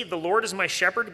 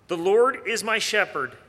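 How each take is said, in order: First: "The Lord is my shepherd" left rising, unfinished; questioning quote. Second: "Lord" stressed firmly, then falling to "shepherd"; emphasis on LORD. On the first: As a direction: query "The Lord is my shepherd" with a lifted, open tune. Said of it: "does it say". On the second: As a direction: declare it with the weight on "Lord". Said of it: "where does the Bible place the emphasis?". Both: Shown as a demonstration.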